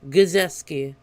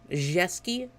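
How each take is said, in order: First: The opening G sound is clearly pronounced. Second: The opening G and R sounds are silent. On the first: The speaker calls it wrong. "That's how I kept saying" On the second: The speaker calls it right. "I think the G R is kind of silent-ish"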